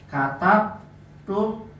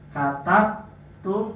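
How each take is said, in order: The two takes are said the same way.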